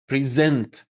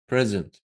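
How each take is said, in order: First: The stress is on the second syllable. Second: The stress is on the first syllable. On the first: It is a verb meaning to show or deliver. "zent is longer and louder than pre" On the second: It is a noun meaning a gift. "When you use it as a noun, you stress the first syllable"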